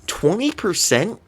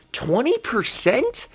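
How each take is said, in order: First: Disbelieving question. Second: Higher, slower incredulous repeat; louder disbelief. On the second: Fan repeating the stat in stunned disbelief. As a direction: stretch it out, stunned. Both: Real, not acted.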